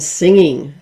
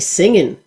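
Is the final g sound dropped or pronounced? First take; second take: pronounced; dropped. First: The final g sound is pronounced. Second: The final g sound is dropped. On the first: "rather than singing" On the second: "country music you'd say singin'"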